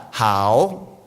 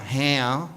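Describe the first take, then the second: First: "hao" in Mandarin, not the English "how". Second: "how" as an Australian says it, the wrong way; plain English "how", not the Mandarin "hao". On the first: Speaker showing the audience the correct Mandarin "hao". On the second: Speaker contrasting the Australian "how" with the Mandarin "hao". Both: Shown as a demonstration. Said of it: "So it's not how".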